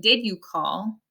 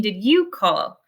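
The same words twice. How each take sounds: First: "did" stands out, rest of the question lighter; stress on DID. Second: "you" picked out as the subject of the question; stress on YOU. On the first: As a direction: lean on "did" in "Did you call". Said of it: "It's in the past 'cause". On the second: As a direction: lean on "you" in "Did you call". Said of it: "the subject is you". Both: Shown as a demonstration.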